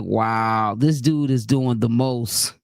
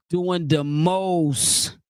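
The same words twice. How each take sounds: First: Low-voiced mock disbelief. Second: Very slow, drawn out: "Doing the most."; drawn-out emphasis. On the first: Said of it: "I was like". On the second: Acted. Savoring her catchphrase for the chat, very slow and drawn out. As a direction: stretch every word of "Doing the most." slowly.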